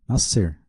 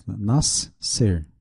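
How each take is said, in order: First: Said in the usual way. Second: "Nascer" split in two with a clear gap; syllables separated. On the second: Shown as a demonstration. Teacher showing how the word is said separated, "Nascer" syllable by syllable. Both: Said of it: "a gente fala separado".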